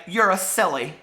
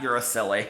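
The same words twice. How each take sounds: First: Playful read-aloud taunt, a touch of Edith's sass; lightly voiced cheeky girl. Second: Quieter, lower repeat, savoring the line; soft fond echo. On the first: Reading Edith's line to Mister Bear, lightly cheeky. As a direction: tease him lightly, as the girl in the book. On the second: Shown as a demonstration. Repeating her favorite book line to herself, softly fond. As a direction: murmur it back to yourself with affection. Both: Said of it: "I love that".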